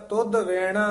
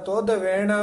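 The two takes are said the same way.

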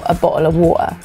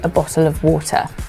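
First: The Ts are glottal stops. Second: The Ts are clear T sounds. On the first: "in certain areas of the UK with accents like Cockney, it's like a fundamental part of their accent" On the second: "But for me, it'd be"

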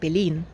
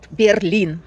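First: The word is said with a German pronunciation. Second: The word is said with a Russian pronunciation. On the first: This is how local people say it. "как говорят местные" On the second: This is how Russian speakers say it. "как мы говорим"

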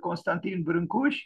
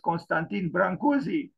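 First: The name is said with Romanian pronunciation. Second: The name is said with English pronunciation. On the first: This is how the name is said in its home country. "This is the Romanian pronunciation" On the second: This is how the name is said abroad. "He is well known outside of the country as"

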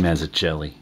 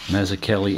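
First: The C is said with a soft sound. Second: The C is said with a hard k sound. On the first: "soft C" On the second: "Hard C"

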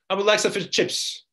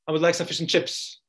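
First: The small words are reduced and run together. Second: The small words are reduced and run together.

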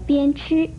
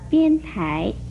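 First: The second syllable is pronounced chi. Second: The second syllable is pronounced tai. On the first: The speaker calls it right. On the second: The speaker calls it wrong.

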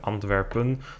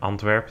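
First: The name is said the Dutch way. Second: The name is said the English way. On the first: "the Dutch one" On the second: "the English pronunciation"

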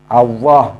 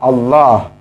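First: The middle consonant is a w sound. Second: The middle consonant is an l sound. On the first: The speaker calls it wrong. "pakai wawu W" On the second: The speaker calls it right. "harus pakai lam"

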